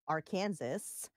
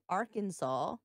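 First: The word ends like 'Kansas'. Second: The word ends with a 'saw' sound. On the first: The speaker calls it wrong. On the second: The speaker calls it right.

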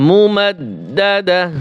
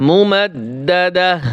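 No difference in how they are said.

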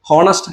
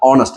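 First: The word begins with an h sound. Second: The word begins directly with a vowel. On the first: The speaker calls it wrong. "ഹോണസ്റ്റ് അല്ല" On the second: The speaker calls it right. "ഓണസ്റ്റ് ആണ്"

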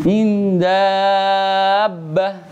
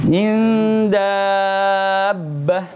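Both takes have the same delivery.

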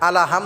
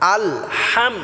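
First: An extra vowel is added after al. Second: No extra vowel comes after al. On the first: The speaker calls it wrong. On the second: The speaker calls it right.

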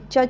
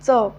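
First: The consonant is made at the palate only. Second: The consonant is made with teeth and palate. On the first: "ययुक्त उच्चार असणार आहे" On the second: "दात आणि टाळूंचा एकमेकांशी स्पर्श होऊन जो ध्वनी बाहेर निघतो त्या प्रोसेसमध्ये त्याला दंततालव्य"

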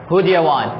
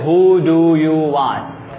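First: The words are reduced and run together quickly. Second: Every word is said fully and clearly. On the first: The speaker calls it right. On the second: The speaker calls it wrong.

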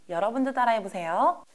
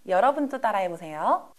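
Both takes have the same delivery.

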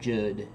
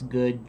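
First: The word begins with a soft J sound. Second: The word begins with a hard G sound. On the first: The speaker calls it wrong. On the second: The speaker calls it right.

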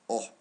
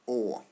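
First: The vowel is cut short. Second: The vowel is held long. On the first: "the short vowels are pronounced this way" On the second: "the long vowels are pronounced this way"

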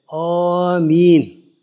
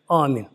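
First: It is said aloud and drawn out. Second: It is said quietly and short.

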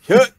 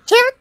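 First: It is said in a low pitch. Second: It is said in a high pitch.

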